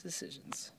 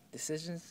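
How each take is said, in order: First: Soft unvoiced whisper to yourself. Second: Said in the usual way. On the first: Real, not acted. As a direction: breathe the word like a private thought. Musing over a polo shirt.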